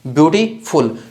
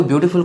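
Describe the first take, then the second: First: beautiful in two chunks, beauty then फुल; stop between syllables. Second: Said in the usual way. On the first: Shown as a demonstration. Teacher showing a double-syllable word, beauty-full split in the middle. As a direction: break beautiful with a brief stop before फुल. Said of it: "थोड़ा सा stop आता है इसमें बीच में". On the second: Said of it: "beautiful को हम कैसे बोलते हैं".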